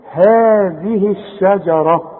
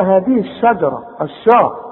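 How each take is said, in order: First: هذه الشجرة slowly, haa in هذه drawn out; two-count long vowel. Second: هذه الشجرة quicker, sha thickened and dark; wrong heavy sheen. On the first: Quran teacher shows the two counts in هذه, drawn-out vowel. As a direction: hold هذه long, then a light الشجرة. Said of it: "عشان تمدها حركتين". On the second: Quran teacher shows what not to say in الشجرة, heavy sheen. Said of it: "وما تقولش بقى". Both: Shown as a demonstration.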